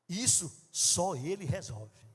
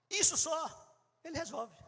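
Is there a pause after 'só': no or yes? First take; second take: no; yes. First: The phrase runs on with no pause. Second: There is a pause after 'só'. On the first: Only he can solve this. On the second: He solves only this.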